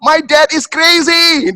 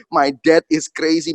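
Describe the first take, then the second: First: High, loud, slow wail; imitated child's screaming. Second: Said in the usual way. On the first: Toddler denouncing dad at the clinic, screaming. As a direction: cry out like an outraged toddler. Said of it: "dia teriaknya tuh saya nggak pernah".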